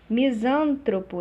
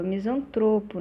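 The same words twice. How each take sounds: First: "Misântropo" stressed on SÂN; stress shifted early. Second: "misantropo" stressed on TRO; penultimate stress. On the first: Teacher showing the error, "Misântropo" stressed on SÂN. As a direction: hit SÂN in "Misântropo", slowly. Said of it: "Deslocamento do acento tônico". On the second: Teacher correcting the error, "misantropo" stressed on TRO. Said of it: "é misantropo". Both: Shown as a demonstration.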